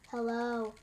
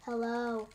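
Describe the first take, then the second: First: The voice is flat and monotone. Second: The voice is flat and monotone.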